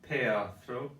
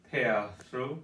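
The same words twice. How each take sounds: The two takes are said the same way.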